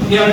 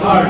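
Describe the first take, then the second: First: The vowel sounds like 'here' with a glide. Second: The vowel sounds like 'her' without a glide. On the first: The speaker calls it wrong. "অনেককে আমি বলতেছি কি হিয়ার্ড বলে, হিয়ার্ড না" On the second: The speaker calls it right. "সব হার্ড"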